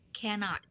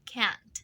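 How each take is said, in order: First: It is said in full with two syllables. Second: It is said contracted as one syllable. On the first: This form suits formal occasions. "Kalau cannot itu biasanya eh, suka dipakai di acara-acara resmi ya" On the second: This form suits everyday conversation. "dalam percakapan sehari-hari, orang-orang itu biasanya mengucapkannya can't"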